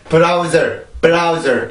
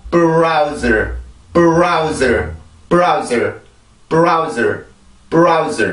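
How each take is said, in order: First: "브라우저" with full Korean vowels; Korean-style browser. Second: "브라우저" as one English syllable, prauz; English browser. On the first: Teacher shows students the wrong Korean way to say it. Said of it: "이게 아니라". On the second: Teacher shows students the right English sound. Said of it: "이렇게 소리를 만들어 주시면 돼요". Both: Shown as a demonstration.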